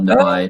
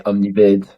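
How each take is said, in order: First: The name is said with an English pronunciation. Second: The name is said with a French pronunciation. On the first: "and it works both ways" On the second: "meant to be said in French and English also"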